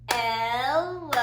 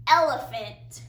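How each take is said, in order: First: "Elephant" stretched slowly into three beats, El, e, phant; syllable by syllable. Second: Said in the usual way. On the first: Shown as a demonstration. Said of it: "clap the syllables". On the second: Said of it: "gonna say a word".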